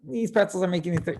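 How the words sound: It sounds mildly upset, like Elaine.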